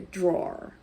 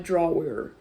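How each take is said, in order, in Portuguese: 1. A vogal E é omitida, deslizando do W para o R. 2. A vogal E é pronunciada entre o W e o R. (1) "Você não vai ler o som do E, então fica um som meio do W pro R" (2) "Não é drawer"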